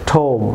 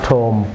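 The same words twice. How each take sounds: First: টোম ending on a long pure m; silent b. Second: টোম্ব ending in a popped stop; wrongly sounded b. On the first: Teacher gives viewers the correct form, টোম without b. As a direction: hum the m closing টোম, no release. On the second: Teacher warns viewers of the error, a stop ending টোম্ব. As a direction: release a b or p after m in টোম্ব. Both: Shown as a demonstration. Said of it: "not টোম্ব".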